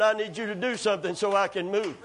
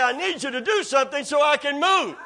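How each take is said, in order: First: Said in the usual way. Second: Higher, pushed-up insistence; insistent demand. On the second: Retold or imitated. Man lying there arguing back at God, insistent demand. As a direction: argue back, pitch raised. Standoff repeated, building up.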